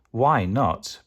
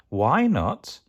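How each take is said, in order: First: Firm, falling echo of the question; lightly voiced father, settling downward; Gruffalo father. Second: Put-on swooping, childlike question; lightly voiced child, pitch looping up; Gruffalo child. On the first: Dad answers his child, firmly echoing the question. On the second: Child asks Dad why, in a curious whine. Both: A narrator's reading.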